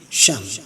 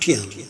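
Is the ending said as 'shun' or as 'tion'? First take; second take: shun; tion. First: The ending is said as 'shun'. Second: The ending is said as 'tee-on'. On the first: The speaker calls it right. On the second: The speaker calls it wrong. "not tion"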